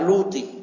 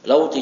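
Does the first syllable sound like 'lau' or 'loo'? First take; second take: loo; lau. First: The first syllable has a long 'oo' vowel. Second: The first syllable has the diphthong 'au'. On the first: The speaker calls it wrong. "jangan dibaca luti" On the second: The speaker calls it right.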